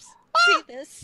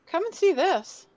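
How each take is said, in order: First: Very high, loud playful shriek; mock scream. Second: High, loud call to the others. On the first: Player redoes Lily's call as suggested, mock scream. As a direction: shriek it out in pretend horror. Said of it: "a little bit of a scream there too". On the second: Acted. Lily calls the party over to the arm, calling out. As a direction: call out with a shiver, pitched up. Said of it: "Lily kinda gives a shiver and calls out".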